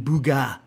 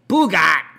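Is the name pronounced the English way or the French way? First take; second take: French; English. First: The name is pronounced the French way. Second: The name is pronounced the English way. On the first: The speaker calls it right. "I guess because it's French, it would be Bugat" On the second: The speaker calls it wrong. "and not Bugat"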